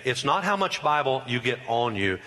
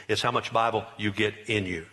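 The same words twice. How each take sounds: First: "on" marked as the wrong one, lighter; stress on on. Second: Bible you get "in" you, the true point; stress on in. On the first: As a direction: Bible you get "on" you, set against "in". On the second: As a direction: settle the weight on "in". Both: Shown as a demonstration.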